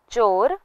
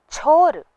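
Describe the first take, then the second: First: चोर with a plain ch; unaspirated ch. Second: छोर higher, with breath after chh; aspirated chh. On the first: Teacher asks for care, चोर with unaspirated ch. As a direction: say चोर without a puff. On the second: Teacher asks for care, छोर with aspirated chh. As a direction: push a puff of air into छोर. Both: Shown as a demonstration. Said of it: "इसका खास ध्यान दें".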